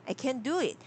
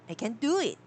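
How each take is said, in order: Both takes have the same delivery.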